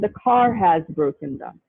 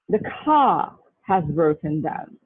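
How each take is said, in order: First: The r at the end of car is pronounced. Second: The r at the end of car is silent. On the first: The speaker calls it wrong. "They will not say" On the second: The speaker calls it right. "So say British English"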